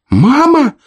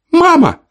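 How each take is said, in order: First: Put-on very high, loud child's cry; his brother calling out too; second child calling. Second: Put-on very high, loud child's cry; a small boy crying out for mom; child calling. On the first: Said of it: "присоединился голос брата". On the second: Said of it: "послышался голос Данила". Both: A narrator's reading.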